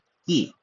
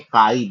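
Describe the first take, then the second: First: The vowel sounds like 'ee'. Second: The vowel sounds like 'eye'. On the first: The speaker calls it right. "इसका एक्चुअल उच्चारण है" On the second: The speaker calls it wrong. "बहुत सारे लोग कहते हैं इसको"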